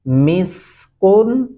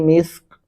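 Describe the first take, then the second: First: The word ends with a clear -un sound. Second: The word ends on a bare k sound. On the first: The reading continues without a stop. "काफ दो पेश कुन" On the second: The reader stops at this word. "ये साइलेंट हो जाएगा काफ"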